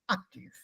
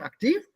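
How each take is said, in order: First: The pitch falls at the end. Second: The pitch rises or stays up at the end. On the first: The sentence is over. The speaker calls it right. "at the end of the sentence, it falls. Sentence over" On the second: The sentence is not yet finished. The speaker calls it wrong. "Not active"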